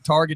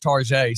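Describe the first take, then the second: First: It is said with a plain English ending. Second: It is said with a French-sounding ending.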